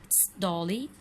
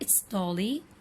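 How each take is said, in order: First: 'It is' is shortened to one syllable 'it's'. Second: The same.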